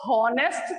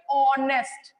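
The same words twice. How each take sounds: First: हॉनेस्ट opened on a breath of H before the vowel; sounded H. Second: ऑनेस्ट begun straight on the vowel, the H left silent. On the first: Teacher showing pupils the wrong reading, हॉनेस्ट with its H sounded. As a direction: say हॉनेस्ट with the H pronounced at the start. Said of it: "तो नहीं बोलते हम इसको". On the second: Teacher showing pupils how the word is spoken, ऑनेस्ट with a silent H. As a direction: say ऑनेस्ट with no H, starting on the open "aw" vowel. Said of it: "हम जब इसको बोलते हैं". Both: Shown as a demonstration.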